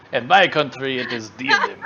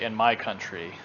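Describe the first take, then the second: First: Put-on loud, jokey Russian accent; mock Russian accent. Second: Said in the usual way. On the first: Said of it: "What was the Russian accent for?". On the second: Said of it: "all you do is just say".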